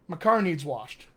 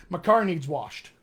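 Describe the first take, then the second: Both takes have the same delivery.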